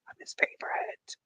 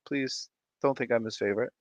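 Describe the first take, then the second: First: Unvoiced conspiratorial whisper. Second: Said in the usual way. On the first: Host whispering a secret to her stream chat. Whispered aside contradicting herself.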